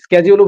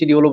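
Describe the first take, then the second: First: The word begins with an 'sk' sound. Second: The word begins with a 'sh' sound. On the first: "এটাকে কিন্তু দুই ভাবে পড়া যায়" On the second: "শিডিউলও বলা যায়"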